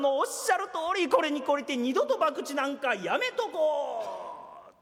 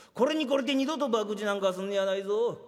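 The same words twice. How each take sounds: First: Repeats the boss's これに懲りて with a laugh, twisting it; laughing parody of the warning; mocking echo. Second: Put-on firm, lower scolding of a young gambler; stern warning. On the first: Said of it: "おやっさんのおっしゃる通り". (笑いながら親父の口調をからかって繰り返す) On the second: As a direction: lay down the law like an old boss. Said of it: "おやっさんのおっしゃる通り、これに懲りて". (懲りて二度と博打なんかすんねやないぞ、と低めに厳しく言い聞かせる)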